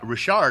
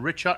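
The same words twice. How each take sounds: First: The name is said with French pronunciation. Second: The name is said with English pronunciation.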